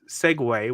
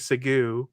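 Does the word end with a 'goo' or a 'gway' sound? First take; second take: gway; goo. First: The word ends with a 'gway' sound. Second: The word ends with a 'goo' sound. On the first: The speaker calls it right. "One of them is segue" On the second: The speaker calls it wrong. "which they'll say segu"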